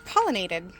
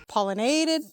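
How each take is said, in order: First: Said in the usual way. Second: "Pollinated" with NA stressed and stretched; stress on wrong syllable. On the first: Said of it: "what's the word?". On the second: Shown as a demonstration. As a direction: move the stress in "Pollinated" onto NA. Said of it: "emphasis on the wrong syllable".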